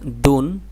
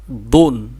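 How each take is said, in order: First: দুন with a thin, light d, drawn out; thin letter sound. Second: দুন with a heavy, thick d, drawn out; thick letter sound. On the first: Teacher comparing two letters for students, thin d in দুন. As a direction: keep the d of দুন light and unthickened. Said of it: "চিকন করে". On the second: Teacher comparing two letters for students, thick d in দুন. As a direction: make the d of দুন full and heavy. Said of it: "মোটা করে". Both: Shown as a demonstration.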